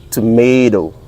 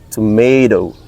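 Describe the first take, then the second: No difference in how they are said.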